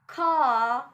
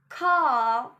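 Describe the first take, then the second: First: The R after the vowel is silent. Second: The same.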